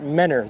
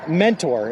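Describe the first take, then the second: First: The T sound in the middle is dropped. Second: The T sound in the middle is pronounced.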